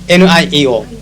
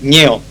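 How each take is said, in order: First: Each letter is spoken separately. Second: It is spoken as a single word.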